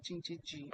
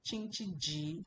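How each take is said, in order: First: "Jin Qi Ji" with the tune falling at the end, quieter, as a statement. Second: "Jin Qi Ji" said with the tune rising at the end, like a question. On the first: Teacher corrects the class with the falling statement reading. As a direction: let "Jin Qi Ji" drop down and settle, not a question. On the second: Teacher shows the class the question-like rising reading. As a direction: lift the end of "Jin Qi Ji" upward. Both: Shown as a demonstration. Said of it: "It doesn't mean it's a question".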